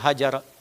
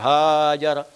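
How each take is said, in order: First: The first vowel is clipped short. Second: The first vowel is drawn out long. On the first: The change is made quickly. "dihilangkan alifnya menjadi kecil" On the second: The change is made in a relaxed way. "yang santai ya pakai alif besar"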